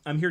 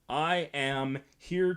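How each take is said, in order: First: 'I am' is contracted into one syllable. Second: 'I am' is said as two separate words. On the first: The speaker sounds like a normal person talking. The speaker calls it right. "Whereas a normal person would say" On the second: The speaker sounds like an inexperienced actor. The speaker calls it wrong. "one of the ways they always sell the fact that it's like an inexperienced performer"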